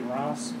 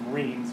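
First: The name is said with a French pronunciation. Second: The name is said the way it is spelled. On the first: The speaker calls it right. "like rancid. But like the French way" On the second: The speaker calls it wrong. "if you see it spelled, it looked like it says Reims"

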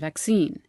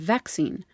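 First: The word carries the American stress pattern. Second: The word carries the British stress pattern. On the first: This is how Americans say it. "whereas we Yanks say" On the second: This is how the British say it. "The British, for example, say"

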